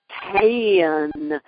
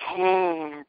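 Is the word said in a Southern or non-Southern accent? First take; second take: Southern; non-Southern. First: It is said in a Southern accent. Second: It is said in a non-Southern accent. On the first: The student said it this way. "I would say can" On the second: The voice teachers said it this way. "they'd say can"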